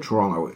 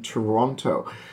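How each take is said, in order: First: The word is clipped, the way locals say it. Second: All three syllables are said in full. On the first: This is how people from the city say the name. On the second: This is how an outsider says the name.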